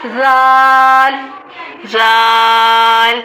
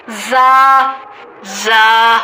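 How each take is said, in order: First: زال drawn out very slowly and gently; soft zaal. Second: زا short, firm and pressed; hard za. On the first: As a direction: let زال glide softly. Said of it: "زال کو نرمی سے پڑھیں گے". (زال نرمی سے) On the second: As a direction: strike زا sharply. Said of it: "جبکہ زا کو سختی سے". (زا سختی سے) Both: Shown as a demonstration.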